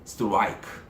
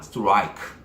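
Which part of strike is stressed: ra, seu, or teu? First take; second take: ra; ra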